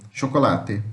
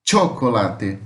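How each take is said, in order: First: Said in the usual way. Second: "Chocolate" with tch at the start and clear final te; Spanish CH, T plus X. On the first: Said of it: "muda a pronúncia". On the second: Shown as a demonstration. Teacher showing the changed pronunciation, "Chocolate" opened with tch. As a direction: pronounce "Chocolate" as Spanish tcho-co-LA-te. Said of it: "como se fosse um T com X".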